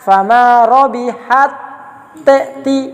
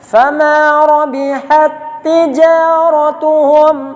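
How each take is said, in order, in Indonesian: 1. Huruf t sukun dibaca terpisah dari t berikutnya. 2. Huruf t sukun menyatu ke t yang mengikutinya. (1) "Jangan dibaca fama rabihat ti. ... Ini bacaan yang salah" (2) "Tetap ta dimasukkan pada huruf ta yang berikut"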